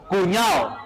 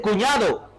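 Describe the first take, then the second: First: The D sound is dropped. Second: The D sound is fully pronounced. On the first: "Suprimen el sonido de la D" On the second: "ya no dicen cuñado"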